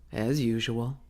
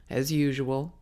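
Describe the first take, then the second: No difference in how they are said.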